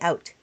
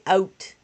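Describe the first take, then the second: First: The vowel in out sounds American. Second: The vowel in out sounds Canadian. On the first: This is the way the speaker normally says it. "I just say out" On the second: This is the way the speaker avoids saying it. "I don't say out"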